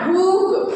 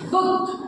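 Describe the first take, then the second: First: The vowel is a long oo sound. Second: The vowel is a short u sound. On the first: The speaker calls it wrong. "Not ಬೂಕ್" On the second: The speaker calls it right. "ಅದು ಕೇವಲ ಉ ಆಗಿರುತ್ತ"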